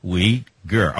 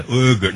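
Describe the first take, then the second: First: "Uyghur" said as "WEE-gur", W sound at the start; correct pronunciation. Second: "Uyghur" said as "OO-gur", without the W; mock the wrong take "Uyghur" as "oo-gur"; wrong pronunciation. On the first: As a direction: model the right take "Uyghur" as "wee-gur". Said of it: "not Uyghur". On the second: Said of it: "No, no, no, not Uyghur". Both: Shown as a demonstration.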